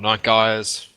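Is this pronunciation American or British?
American. It is said with an American pronunciation.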